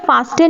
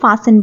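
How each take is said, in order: First: The t sound is clearly pronounced. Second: The t sound is left out. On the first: The speaker calls it wrong. "हम इसे फास्टन नहीं बोलेंगे" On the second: The speaker calls it right. "इसमें टी silent होता है"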